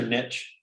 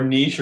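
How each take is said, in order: First: NICHE as "nitch"; anglicized niche. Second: NICHE as "neesh"; French niche. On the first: Co-host offers another disputed word, anglicized. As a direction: say NICHE to rhyme with "pitch". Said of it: "people here say niche". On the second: Co-host offers another disputed word, French way. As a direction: say NICHE with long EE and SH. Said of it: "you're actually supposed to say niche". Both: Shown as a demonstration.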